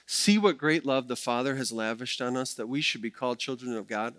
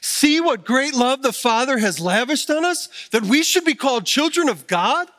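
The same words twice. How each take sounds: First: It is read in a plain, flat way. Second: It is read with exclamatory excitement.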